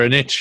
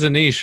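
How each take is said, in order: First: Niche is said the American way. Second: Niche is said in a non-American way.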